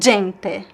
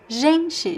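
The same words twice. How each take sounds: First: The G starts with an abrupt stop. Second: The G is a long, continuous buzzing sound. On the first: The speaker calls it wrong. "It's not gente" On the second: The speaker calls it right. "be careful with this j sound. It's j"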